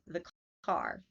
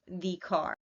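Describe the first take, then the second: First: The word 'the' is reduced and unstressed. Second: The word 'the' is fully pronounced and stressed.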